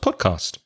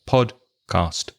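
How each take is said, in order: First: The word is said quickly, parts joined. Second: The word is said slowly, parts separated. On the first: "make it faster" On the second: "try to separate those two words when you say them and then slowly speed up"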